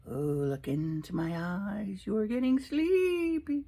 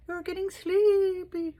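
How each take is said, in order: First: Slow, lilting mock hypnotist. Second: Much higher, slow sing-song hypnotist; hammed-up hypnotist. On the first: Teasing viewers as a hypnotist, slow hypnotic drone. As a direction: drone it slowly like a stage hypnotist. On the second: Repeating the hypnotist line to viewers, higher and hammier. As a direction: push the hypnotist voice up and over the top.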